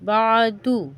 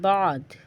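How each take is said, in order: First: The word ends with a final vowel. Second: The word ends on a bare consonant.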